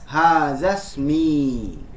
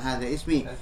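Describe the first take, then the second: First: The two words run together without ismi's initial vowel. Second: Ismi starts with its own vowel after a break. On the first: The speaker calls it right. "Gitu cara membacanya" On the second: The speaker calls it wrong. "bukan hadza ismi"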